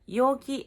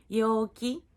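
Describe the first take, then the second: First: "Yoki" with falling pitch at the end; yoki meaning container. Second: "yoki" with pitch rising at the end; cheerful-person intonation, "yoki" rising; yoki meaning cheerful. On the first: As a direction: let "Yoki" drop on its final syllable. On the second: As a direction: lift the final syllable of "yoki". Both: Shown as a demonstration. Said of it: "viu a diferença da entonação?".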